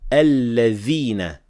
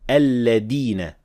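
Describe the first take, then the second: First: The middle consonant is a th sound. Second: The middle consonant is a d sound. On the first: The speaker calls it right. "only say alladhina with dhal" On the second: The speaker calls it wrong. "mispronounce it as dal"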